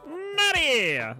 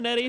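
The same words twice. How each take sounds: First: The name is said in a booming announcer voice. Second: The name is said in a plain, ordinary voice.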